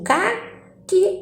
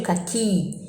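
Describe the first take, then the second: First: "caqui" as CA-qui, first syllable drawn out; stress on first syllable. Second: "caqui" as ca-QUI, last syllable held; stress on last syllable. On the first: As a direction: hold the CA in "caqui", then a short qui. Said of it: "Aonde eu demoro mais". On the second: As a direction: lean on the final QUI of "caqui". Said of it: "aonde eu coloco mais intensidade". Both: Shown as a demonstration.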